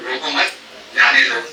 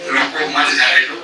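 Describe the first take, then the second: First: रोको मत together, clear pause, then जाने दो; comma after मत. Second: रोको set apart, then मत जाने दो together; group मत with जाने दो, detached from रोको; comma after रोको. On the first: Teacher showing how a comma changes meaning, pause after मत. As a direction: break the phrase between मत and जाने. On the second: Teacher showing how a comma changes meaning, comma after रोको. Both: Shown as a demonstration. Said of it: "comma कहाँ पे लगा है".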